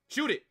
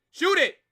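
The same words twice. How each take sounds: First: Said in the usual way. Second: Shout. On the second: Real, not acted. Fan yelling at the player to shoot, loud excited shout. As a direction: Shoot yelled loud and high. Urging a shot live.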